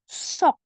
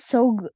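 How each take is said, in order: First: The word ends with an unreleased K sound. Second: The word ends with a voiced G sound. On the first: The speaker calls it right. "tapi sok. Semua dibaca K" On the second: The speaker calls it wrong. "bukan sog, bukan pakai G terakhirnya"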